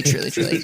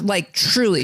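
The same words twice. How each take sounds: First: "truly, truly" whispered under the breath. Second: Said in the usual way. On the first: Real, not acted. Trailing emphatic agreement.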